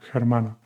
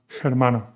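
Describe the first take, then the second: The two takes are said the same way.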